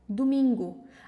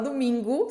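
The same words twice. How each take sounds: First: The final vowel sounds like O. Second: The final vowel sounds like U. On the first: "A gente está falando com som de O" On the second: "A gente fala como se fosse uma letra U"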